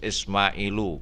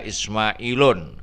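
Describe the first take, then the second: First: The word ends on a vowel without n. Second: The word ends with an added n sound. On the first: The speaker calls it right. "harus Ismailu" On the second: The speaker calls it wrong. "tidak boleh dibaca Ismailun"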